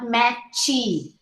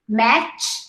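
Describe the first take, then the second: First: An extra vowel follows the final consonant. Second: It ends cleanly on the final consonant. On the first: The speaker calls it wrong. "and not matchy" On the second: The speaker calls it right. "You say one syllable"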